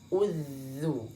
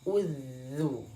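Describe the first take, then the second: No difference in how they are said.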